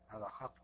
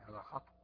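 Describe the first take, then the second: No difference in how they are said.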